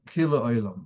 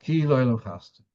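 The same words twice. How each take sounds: First: "ki lo'olam" slurred into one word, like "kil-oilam"; words run together. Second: KI said as its own clear word; stress on KI. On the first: Teacher warning how it shouldn't sound, "ki lo'olam" run together. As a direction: attach the L of "lo'olam" onto "ki". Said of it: "It shouldn't sound like". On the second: Teacher showing students what to stress, stress on KI. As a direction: set "ki" apart from "lo'olam". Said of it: "You have to stress". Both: Shown as a demonstration.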